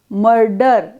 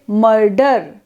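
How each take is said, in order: First: The vowel is said unstressed and reduced. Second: The vowel is said unstressed and reduced.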